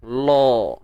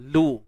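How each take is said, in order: First: The syllable is said thick, with a darker vowel. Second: The syllable is said thin, with a light vowel. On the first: The speaker calls it wrong. "jangan lo" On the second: The speaker calls it right. "Ha, lu"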